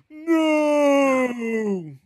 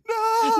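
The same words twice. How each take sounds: First: It is said in a theatrical vaudeville way. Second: It is said in a scared way.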